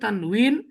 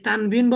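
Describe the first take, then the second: First: The middle consonant is a w sound. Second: The middle consonant is a b sound. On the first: This is the original Arabic pronunciation. "আরবিটা হচ্ছে উচ্চারণ হচ্ছে তানউইন" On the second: This is the Persian-influenced local pronunciation. "এই তানবিন বলে, এটা এই শব্দটা হচ্ছে আ- ফার্সি"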